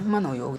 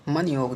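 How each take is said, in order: First: मनोयोग as mano-yog; corrected form. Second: मन योग as man-yog; no o after n in मन योग; wrong form. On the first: Teacher corrects students, मनोयोग as mano-yog. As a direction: sound a full o in मनोयोग. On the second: Teacher shows the error, मन योग as man-yog. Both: Shown as a demonstration. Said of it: "नहीं होता है".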